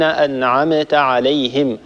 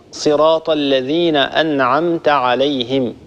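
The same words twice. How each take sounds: First: أنعمت with the meem released in a small echo; أنعمت with the silent m popped open; bouncing meem. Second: أنعمت with the meem closed and still, no bounce; صراط الذين أنعمت عليهم, meem not echoed; smooth silent meem. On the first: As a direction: add a qalqala bounce on the m of أنعمت. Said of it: "هذا خطأ". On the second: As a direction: say أنعمت with a calm held m. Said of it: "لا نقلقل هذه الميم". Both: Shown as a demonstration.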